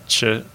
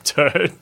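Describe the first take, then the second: First: The word begins with a ch-like sound. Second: The word begins with a plain t sound.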